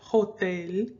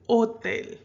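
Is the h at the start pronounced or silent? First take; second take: pronounced; silent. First: The word begins with an audible h sound. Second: The word begins with no h sound. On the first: The speaker calls it wrong. "you don't pronounce it hotel" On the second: The speaker calls it right. "the H is silent"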